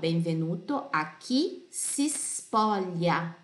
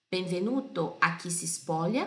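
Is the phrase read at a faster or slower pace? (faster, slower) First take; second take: slower; faster. First: The phrase is read at a slower pace. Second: The phrase is read at a faster pace.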